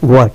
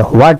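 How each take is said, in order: First: "হোয়াট" starting on a plain w; silent H. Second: "হোয়াট" with an audible H; mispronounced H. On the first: Teacher telling learners what to say, silent H. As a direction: say "হোয়াট" as wot, no H. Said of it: "এখন থেকে বলবেন হোয়াট". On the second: Teacher warning learners off the sounded H, mispronounced. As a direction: say "হোয়াট" starting hw-. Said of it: "এখন থেকে হোয়াট বলবেন না". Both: Shown as a demonstration.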